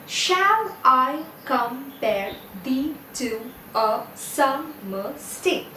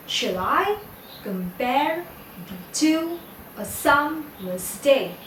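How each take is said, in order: First: Slow, each syllable separated. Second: "Shall I compare thee to a summer's day?" in paired beats, weak then strong, pausing between; iambic stress. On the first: Teacher counting ten syllables in the line for students, syllable by syllable. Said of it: "you have ten syllables in this line". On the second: Teacher showing unstressed then stressed syllables, iambic stress on "Shall I compare thee to a summer's day?". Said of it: "unstressed syllable is followed by a stressed syllable". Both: Shown as a demonstration.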